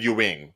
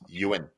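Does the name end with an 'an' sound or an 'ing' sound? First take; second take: ing; an. First: The name ends with an 'ing' sound. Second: The name ends with an 'an' sound. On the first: The speaker calls it wrong. "you said Ewing, like Patrick Ewing" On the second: The speaker calls it right. "It's Ewan"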